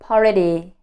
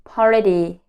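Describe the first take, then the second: First: The T is a soft flap like D. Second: The T is a soft flap like D.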